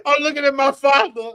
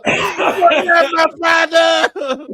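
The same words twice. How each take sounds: First: Said in the usual way. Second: Slow, crying dramatic wail; hammed-up tearful cry. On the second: Son staring at his father, redone as a melodramatic tearful shout.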